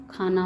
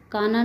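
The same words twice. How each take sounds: First: Said in the usual way. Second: काना with unaspirated k; mispronounced. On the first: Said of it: "होता है". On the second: Shown as a demonstration. Teacher showing students an error, काना without aspiration. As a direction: say काना with no breath after k. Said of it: "नहीं होता".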